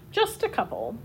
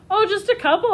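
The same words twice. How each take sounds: First: Quiet coy. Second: Coy understatement. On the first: Shown as a demonstration. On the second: A narrator's reading. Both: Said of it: "Oscar repeated".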